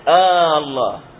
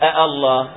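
First: It starts with one long drawn-out a vowel. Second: The second glottal stop is softened toward a vowel. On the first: "فينطقونها ألف واحدة ممدودة" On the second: "يسهل الثانية بين الهمزة وبين الألف"

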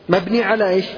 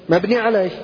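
No difference in how they are said.

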